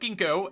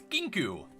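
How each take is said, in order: First: The name ends with an 'oh' vowel. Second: The name ends with an 'oo' vowel. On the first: The speaker calls it wrong. "not Kinko, as I always pronounce it" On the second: The speaker calls it right. "It's Kinku"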